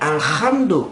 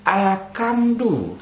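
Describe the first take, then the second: First: The middle consonant is a raspy throat sound. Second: The middle consonant is a hard k sound. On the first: "Kotor sikit di leher dia" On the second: "Hak berubah jadi kaf"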